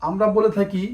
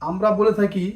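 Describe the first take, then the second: No difference in how they are said.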